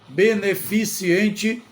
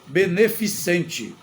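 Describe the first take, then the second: First: It is said with an 'i' sound before '-ente'. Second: It is said without an 'i' sound before '-ente'. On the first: The speaker calls it wrong. "Beneficiente não existe neste caso" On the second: The speaker calls it right. "A palavra correta é beneficente. Não tem o i"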